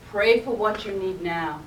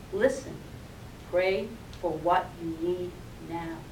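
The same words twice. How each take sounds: First: Steady, strong, unhurried inner voice; a lightly voiced calm inner voice; calm assured voice. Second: Low, soft, calm command; a quiet, lower take of the calm voice; soft inner voice. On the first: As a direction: speak it like a sure, calm guide. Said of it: "strong, calm, assured voice". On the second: Acted. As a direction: hush her panic with it gently. Inner voice repeats gently.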